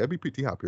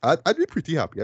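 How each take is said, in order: First: A quiet echo to yourself; soft echo. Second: Said in the usual way. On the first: Shown as a demonstration. Reviewer echoing his own hope softly, much softer. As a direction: repeat it much softer, under the breath. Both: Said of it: "repeats line, second softer".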